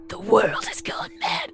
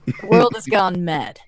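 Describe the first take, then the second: First: The voice is breathy and lacks low register. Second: The voice is full and in a lower register. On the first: The speaker calls it wrong. "that's just breathy" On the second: The speaker calls it right. "Get on voice"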